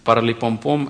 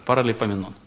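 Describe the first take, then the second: First: The word breaks off and stumbles midway. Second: The word is said quickly and smoothly. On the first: The speaker calls it wrong. "это неправильно" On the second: The speaker calls it right. "можете ли вы произнести название этой книги быстро"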